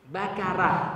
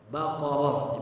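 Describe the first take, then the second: First: The middle consonant is a light front k. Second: The middle consonant is a heavy back q. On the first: The speaker calls it wrong. "itu salah juga" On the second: The speaker calls it right. "dibaca tebal oro ya. Baqarah, bukan bakarah"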